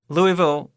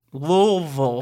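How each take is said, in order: First: Said in the usual way. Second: "Louisville" said as "LOO-vul", two syllables; "Louisville" swallowed into "LOV-ul"; local pronunciation. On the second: Shown as a demonstration.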